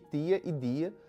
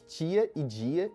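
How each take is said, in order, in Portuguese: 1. O t e o d são sons de oclusiva simples. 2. O t e o d soam como ch e j. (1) "em vez de ... como é comum no português de Portugal" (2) "Grande parte dos brasileiros diz"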